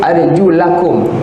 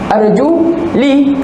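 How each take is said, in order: First: The vowel after 'arjul' is 'a'. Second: The vowel after 'arjul' is 'i'. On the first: The feet must be washed. "Tengok baris atas ni" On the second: The feet need only be wiped. "dibaca baris bawah"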